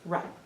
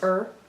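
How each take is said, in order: First: A short vowel follows the R sound. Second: A vowel comes before the R sound. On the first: The speaker calls it right. "It's ruh" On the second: The speaker calls it wrong. "we didn't know if it was er or ruh"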